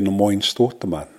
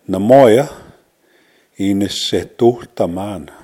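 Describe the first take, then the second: First: The words run together with syllables dropped. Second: Every syllable of both words is said separately.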